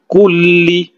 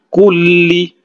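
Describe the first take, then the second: First: The l sound is held long. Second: The same.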